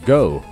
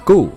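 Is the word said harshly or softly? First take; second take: softly; harshly. First: The word is said relaxed and soft. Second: The word is said hard and stiff. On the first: The speaker calls it right. "而是go faster" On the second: The speaker calls it wrong. "不要读得太硬，读成go"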